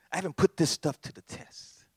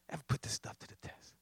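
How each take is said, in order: First: Said in the usual way. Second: Much softer, whispered repeat; [name]'s quiet, whispered admission. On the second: Acted. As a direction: drop it to a whisper the second time.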